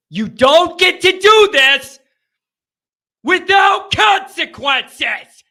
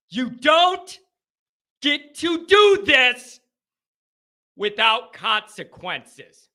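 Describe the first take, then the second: First: Loud, high, outraged shout; building to a furious yell; angry outburst. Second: Slow, broken into deliberate chunks; measured indignation with heavy pauses; controlled anger. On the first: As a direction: shout it slowly and furiously at the end. Host ranting after a bad loss. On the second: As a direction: repeat it firmly, easing down at the end. Repeats the outburst more controlled. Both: Real, not acted.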